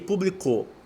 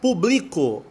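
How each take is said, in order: First: The stress is on the last syllable. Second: The stress is on the middle syllable. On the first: "Aguda, que é oxítona"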